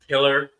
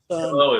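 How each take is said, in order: First: The word ends with an 'er' sound. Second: The word ends with a clear 'oh' sound.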